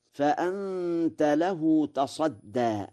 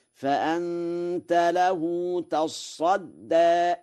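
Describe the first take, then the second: First: Said in the usual way. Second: High, very slow chant with a doubled sad in تصدى; Warsh reading. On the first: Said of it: "قوله تعالى". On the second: Shown as a demonstration. Teacher chanting تصدى with a doubled sad. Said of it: "بتشديد الصاد".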